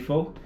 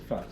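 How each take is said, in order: First: The vowel does not rhyme with 'duh'. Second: The vowel rhymes with 'duh'. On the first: This is how most people say it. "Most people say pho" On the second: This is how the pronunciation guide gives it. "it literally said "fa" like "duh.""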